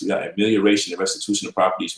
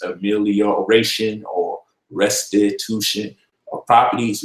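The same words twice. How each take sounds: First: Rushed jargon. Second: Slow, careful long words. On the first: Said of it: "we start falling asleep". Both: Shown as a demonstration.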